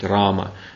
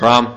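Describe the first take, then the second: First: The word ends with a final a vowel. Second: The word ends without the final a vowel. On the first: The speaker calls it right. "нужно произносить «рама»" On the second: The speaker calls it wrong. "уже на один слог меньше, уже «а» не звучит последнее"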